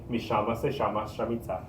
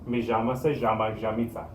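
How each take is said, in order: First: The double L is said as an sh sound. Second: The double L is said as a j sound. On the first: "Kind of over exaggerating that" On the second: "they might say this as j or sh"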